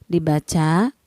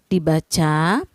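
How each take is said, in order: No difference in how they are said.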